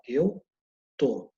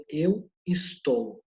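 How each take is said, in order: First: "tô" as one short syllable, the first part of "estou" dropped; pause, then drop to a single-syllable "tô"; contracted form. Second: ESTOU said in full, slowly, both syllables sounded; full extended form. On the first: Teacher showing how people normally talk, "tô" contracted to one syllable. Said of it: "mas normalmente o que que você fala?". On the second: Teacher showing students the formal Portuguese form, "estou" slowly in full. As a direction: draw out "estou" as two clear syllables. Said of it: "A forma, ah, estendida". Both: Shown as a demonstration.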